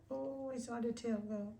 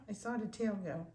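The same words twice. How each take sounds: First: Higher, delighted coo; light up at the wag, pitched up. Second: Said in the usual way. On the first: Real, not acted. Breeder cooing at the wagging puppy, delighted.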